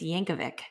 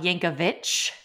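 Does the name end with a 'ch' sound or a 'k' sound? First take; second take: k; ch. First: The name ends with a 'k' sound. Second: The name ends with a 'ch' sound. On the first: The speaker calls it right. "it's Yankovic" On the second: The speaker calls it wrong. "I thought his name was pronounced Al Yankovic with a CH at the end"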